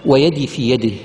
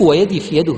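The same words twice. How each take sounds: First: Low, slow recital of "ويدي في يده"; recited quote. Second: "ويدي" stressed, pointed, falling repeat. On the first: (تلاوة منخفضة هادئة) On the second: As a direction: hit "ويدي في يده" to point it out. (تأكيد على "ويدي") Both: Shown as a demonstration. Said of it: "شوف".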